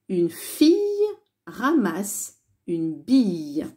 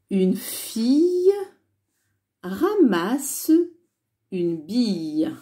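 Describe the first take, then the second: First: The sentence is read at a faster pace. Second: The sentence is read at a slower pace.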